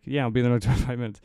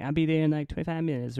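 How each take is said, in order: First: Said in the usual way. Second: High-pitched squealy caller voice; Mike Tyson. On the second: Retold or imitated. Triple A guy promising to come, high squealy voice. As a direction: do a bad, squeaky celebrity impression. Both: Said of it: "I'm gonna stop doing the voice".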